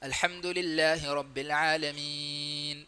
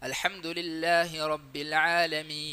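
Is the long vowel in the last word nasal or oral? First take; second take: nasal; oral. First: The long vowel is nasalized through the nose. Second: The long vowel is oral, without nasality. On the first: The speaker calls it wrong. "മീ മീ മൂക്കിൽ ബന്ധം വരും" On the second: The speaker calls it right. "അതില്ലാതെ ... ഈ ആ ഒച്ചയാണ് വരേണ്ടത്"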